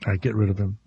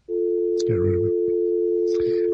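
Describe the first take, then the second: First: Said in the usual way. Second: Very slow whispered get rid of him; whispered order to cut the caller; whispered dismissal. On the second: Real, not acted. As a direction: breathe it out like a stage aside. Dumping a racist caller.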